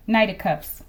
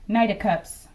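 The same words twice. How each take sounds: The two takes are said the same way.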